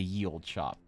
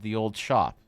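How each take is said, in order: First: The first word begins with a y sound. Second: The first word begins with a th sound. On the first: The speaker calls it wrong. "Or am I supposed to say ye old shop?" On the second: The speaker calls it right. "I said the old shop"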